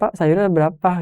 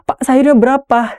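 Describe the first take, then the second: First: It is said casually, like everyday talk. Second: It is said sharply and firmly, with projection. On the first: It is an ordinary conversation at the market. The speaker calls it wrong. "misal di pasar" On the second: It is delivered for an audience on stage. The speaker calls it right. "di adegan drama nggak bisa kayak gitu"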